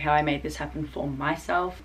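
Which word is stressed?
myself. The word myself is strongly stressed.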